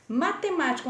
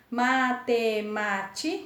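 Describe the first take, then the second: First: Said in the usual way. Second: MA - TE - MÁ - TI - CA, slow, level beats; teacher sounding out MA-TE-MÁ-TI-CA; split into syllables. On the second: Shown as a demonstration. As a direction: say matemática in five slow pieces, MA, TE, MÁ, TI, CA. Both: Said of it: "cinco sílabas".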